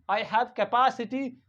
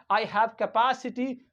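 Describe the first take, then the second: No difference in how they are said.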